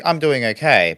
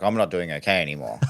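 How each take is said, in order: First: Upbeat, a bit higher and brighter; confident. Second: Quicker, lower and softer; deflated. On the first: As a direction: sound sure things are fine. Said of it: "and I'm like". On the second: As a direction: let the confidence drain away. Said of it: "I'm like". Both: Retold or imitated.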